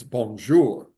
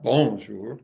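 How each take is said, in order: First: "bonjour" stressed on the last syllable, bon-JOUR, slow; French stress demo. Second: "bonjour" stressed on the first syllable, BON-jour; wrong stress demo. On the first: Lecturer demonstrating correct French stress, slowly. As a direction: land the weight on JOUR in "bonjour". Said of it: "In French, it's the last syllable". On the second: Lecturer contrasting the wrong French stress. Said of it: "It's not bonjour". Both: Shown as a demonstration.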